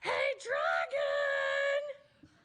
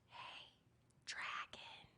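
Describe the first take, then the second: First: It is shouted very loudly. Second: It is whispered very softly.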